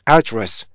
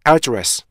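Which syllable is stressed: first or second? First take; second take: first; first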